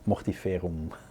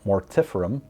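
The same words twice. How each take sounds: First: It is said the European way. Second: It is said the American way.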